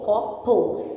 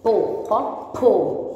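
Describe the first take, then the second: First: Said in the usual way. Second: "Po, copo" said syllable by syllable, very slowly; teacher building "copo" from "po"; slow sounding out. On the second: Shown as a demonstration. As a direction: stretch "Po, copo" apart, slowly. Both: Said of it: "a sílaba po".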